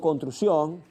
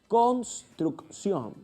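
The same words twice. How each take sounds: First: The word's sounds are poorly articulated. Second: Every sound of the word is articulated exactly. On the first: The speaker calls it wrong. "ahí hay una falla en la articulación" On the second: The speaker calls it right. "obviamente tu articulación es buena"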